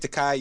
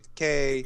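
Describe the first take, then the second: First: The last syllable does not rhyme with 'gay'. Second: The last syllable rhymes with 'gay'. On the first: This is the speaker's own way of saying it. "I say Takei" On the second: This is the other person's way of saying it. "you say Takei"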